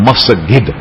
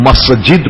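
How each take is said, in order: First: The middle consonant is a hard g sound. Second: The middle consonant is a j sound.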